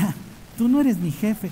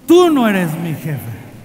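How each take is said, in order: First: It is said timidly, without conviction. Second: It is said firmly, with serious attitude.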